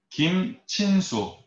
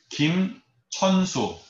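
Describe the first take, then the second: First: The middle syllable is said as chin. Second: The middle syllable is said as cheon. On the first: "또 다른 거로 읽어볼게요" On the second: "제가 다시 읽어볼게요"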